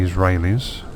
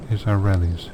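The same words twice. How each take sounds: First: "Israelis" with a long "ray" in the middle; first pronunciation. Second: "Israelis" with a short "rel" in the middle; tentative pronunciation. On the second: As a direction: try out "Israelis" as iz-uh-REL-eez, softly. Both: Real, not acted. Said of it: "how you do pronounce it".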